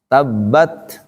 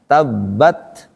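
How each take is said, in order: Both takes have the same delivery.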